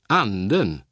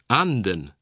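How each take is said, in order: First: The word carries Swedish pitch accent 2. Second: The word carries Swedish pitch accent 1. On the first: It means the spirit. "Akzent 2" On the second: It means the duck. "Akzent 1"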